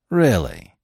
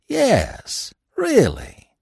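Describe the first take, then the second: First: A tired, doubting really; weary doubt. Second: Put-on much higher, odd sullen voice for the old man; sullen old trapper. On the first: Narrator doubting the stranger, wearily. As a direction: barely humour his yarn. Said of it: "I replied, tiring of his yarn". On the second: Old trapper insisting to the narrator, high and sullen. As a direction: insist it, sulky and stubborn. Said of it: "he repeated sullenly". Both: A narrator's reading.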